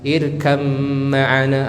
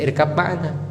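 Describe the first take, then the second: First: The first word ends with an m sound. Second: The first word ends with a b sound. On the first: The speaker calls it right. "Ba-nya diganti dengan mim" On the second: The speaker calls it wrong. "tapi bacanya bukan irkab ma'ana"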